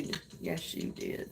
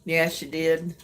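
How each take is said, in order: First: Breathy whisper, barely there. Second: Said in the usual way. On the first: Real, not acted. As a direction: whisper it as a playful secret. Teasing reply to viewer.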